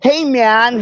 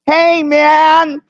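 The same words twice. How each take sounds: First: A slight hint of his laid-back "Hey, man"; quoting him in passing, barely voiced; a mild mimic of a beach-guy greeting; lightly imitating Schumacher. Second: A higher, drawn-out "Hey, man" in his voice; easy laid-back greeting, pitched up; Schumacher impression. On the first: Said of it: "when he says shit like". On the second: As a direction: do your best Schumacher. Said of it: "[name]'s got the best Schumacher impression".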